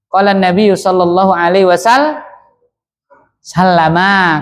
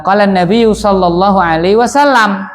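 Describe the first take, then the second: First: Wasal-, pause, then sallama with final a; full ending. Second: Wasallam closed on m, no final vowel; pausal ending. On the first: Teacher revealing the complete form to students, full ending. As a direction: break at wasal- and finish on an open "ma". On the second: Teacher giving the familiar stopped form, pausal ending. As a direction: stop the phrase firmly on wasallam. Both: Shown as a demonstration. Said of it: "Komplitnya apa itu?".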